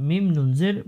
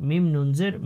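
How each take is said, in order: Both takes have the same delivery.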